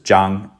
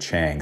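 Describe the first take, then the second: First: It is said with a Mandarin Chinese pronunciation. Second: It is said with an American English pronunciation.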